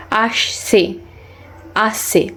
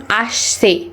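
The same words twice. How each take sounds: First: আসছে said softly and carefully with স; careful repetition. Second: Slow, clear model of আসছে; deliberate teacher demo of আসছে; slow demonstration. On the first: Acted. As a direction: quietly practise আসছে until it comes out right. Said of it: "হয়েছে।". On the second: Shown as a demonstration. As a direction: say আসছে slowly with a clean স. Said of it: "আবার ছ উচ্চারণ করছেন কেন".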